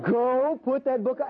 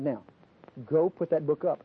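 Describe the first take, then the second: First: High, exasperated mock command; hammed-up parental order at the end of patience; losing his cool. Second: Controlled parental command; firm order. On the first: Father repeating the order to his defiant child, exasperated. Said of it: "I was losing my cool". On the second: Retold or imitated. Father to his spanked daughter about the book, firm. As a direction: retell a firm, contained instruction.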